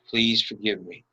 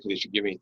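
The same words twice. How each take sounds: First: It is said slowly with warm, sincere feeling. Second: It is said flatly and quickly without feeling. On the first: The speaker means what is being said. The speaker calls it right. "you heard the intentionality with my voice" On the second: The words are recited without meaning them. The speaker calls it wrong. "Not just rote"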